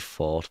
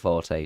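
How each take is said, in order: First: It is said as a single syllable. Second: It is said with two syllables. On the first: This is the original, correct form. "It's actually fort" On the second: This is the form most people use now. "everyone is used to pronouncing it forte now. So I also say forte"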